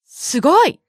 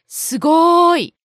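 First: The middle syllable is short and quick. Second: The middle syllable is stretched out long. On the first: "Just like that" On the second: "Some people prolong the second syllable"

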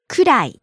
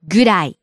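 First: The word begins with a voiceless k sound. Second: The word begins with a voiced g sound. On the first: "く, く" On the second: "ぐ, ぐ, ぐ"

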